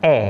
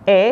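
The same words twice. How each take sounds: First: "e" as open eh; front, open vowel for "e"; e with circumflex. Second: "e" as schwa uh; e without circumflex. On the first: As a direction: say "e" as a clear "eh". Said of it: "rambutnya dibaca". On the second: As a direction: say "e" as a dull "uh". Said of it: "tidak ada rambutnya dibacanya". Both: Shown as a demonstration.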